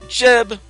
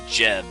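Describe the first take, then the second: First: The name is said excitedly, with energy. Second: The name is said flatly, without energy. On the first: The speaker calls it right. "there's an exclamation point after my first name" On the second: The speaker calls it wrong. "I suppose I'm not saying that right"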